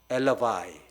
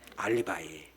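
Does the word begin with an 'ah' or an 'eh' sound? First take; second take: eh; ah. First: The word begins with an 'eh' vowel. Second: The word begins with an 'ah' vowel.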